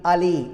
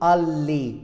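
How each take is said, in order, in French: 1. Le L est court et simple. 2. Le L est long et double. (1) "un seul L. On dit aller" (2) "On ne dira jamais aller. Non, c'est faux"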